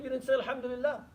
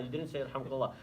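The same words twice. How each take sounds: First: Much higher, set-apart voice for the Prophet's reply; quoting the Prophet. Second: Said in the usual way. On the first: Retold or imitated. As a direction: lift the voice high to voice the Prophet's answer. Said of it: "He said". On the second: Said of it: "So it's not like you're less".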